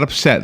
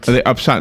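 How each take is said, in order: First: The second syllable rhymes with set. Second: The second syllable rhymes with got. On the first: "not upset" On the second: "Because upsot rhymes with what? Got"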